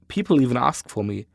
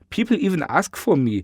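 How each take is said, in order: First: It is said in the speaker's ordinary voice. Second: It is said in a put-on character voice.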